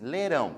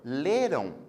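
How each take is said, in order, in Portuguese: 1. A sílaba tônica é a última. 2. A sílaba tônica é a primeira. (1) "Sílaba tônica é a última" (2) "a outra que é a sílaba tônica é o lê"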